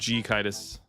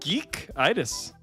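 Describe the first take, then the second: First: The name starts with the letter name G. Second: The name starts with the word geek. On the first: The speaker calls it wrong. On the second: The speaker calls it right.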